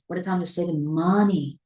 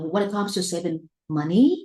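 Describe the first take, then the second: First: The last word keeps its normal pitch, without rising. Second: The last word ends with a sharp rising pitch.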